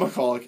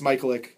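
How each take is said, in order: First: The name is said as 'McCulloch'. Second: The name is said as 'Michaelick'. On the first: The speaker calls it wrong. "It's not McCulloch" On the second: The speaker calls it right. "they called him Michaelick"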